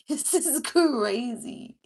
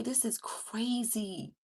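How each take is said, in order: First: Louder, laughing, slow "This is crazy". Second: Said in the usual way. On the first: Real, not acted. Repeats reaction with laugh.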